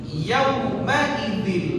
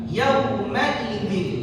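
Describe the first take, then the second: Both takes have the same delivery.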